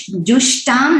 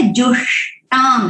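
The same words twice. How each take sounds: First: जुष्टाम with plain dental s; जुष्टाम said with a thin hissing s; wrong s sound. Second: जुष्टाम with a retroflex sh, tongue curled back; जुष्टाम with a full clear sh; clear sh sound. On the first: Teacher showing a common chanting mistake, जुष्टाम with plain s. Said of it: "जुष्टाम नहीं है". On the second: Teacher showing the correct chant, जुष्टाम with sh. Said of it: "श ठीक से बोलना है". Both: Shown as a demonstration.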